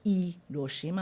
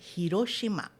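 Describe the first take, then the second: First: The initial h is silent. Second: The initial h is aspirated. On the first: The speaker calls it wrong. "Não é Hiroshima" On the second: The speaker calls it right. "o H em japonês sempre é pronunciado aspirado"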